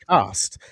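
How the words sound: It is said with an Australian accent. "we say podcast"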